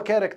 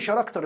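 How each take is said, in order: First: The word begins with a k sound. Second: The word begins with a sh sound. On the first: The speaker calls it right. "اللي هو character" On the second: The speaker calls it wrong. "قُلت له ش ليه شراكتر؟"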